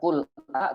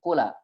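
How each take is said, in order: First: Qul is kept apart from the following vowel. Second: The l runs straight into the following vowel. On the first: This is not how that group reads it. "Bukan qul a" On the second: This is how that group reads it. "tetapi qula"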